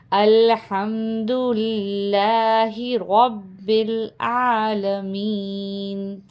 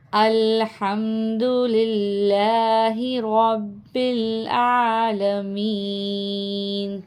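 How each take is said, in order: First: Slow, connected model reading with long vowels; joined-up slow reading. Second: Slow Quranic chant, العالمین drawn out; sung, tilawat recitation. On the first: Teacher joining all four words for students, slowly and connectedly. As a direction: link الحمد للہ رب العالمین in one slow line. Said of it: "ہم چاروں کو ملا کے پڑھیں گے". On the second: Sung, teacher repeating the verse for students as melodic tilawat. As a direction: chant it as recitation with long held endings. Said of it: "تلاوت کے ساتھ کر لیتے ہیں". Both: Shown as a demonstration.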